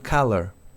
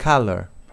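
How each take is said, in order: Both takes have the same delivery.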